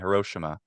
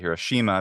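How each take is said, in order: First: The vowel is unstressed and reduced. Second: The vowel is stressed and full. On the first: "Hiroshima with that I if it's not stressed" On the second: "we say Hiroshima if it's stressed"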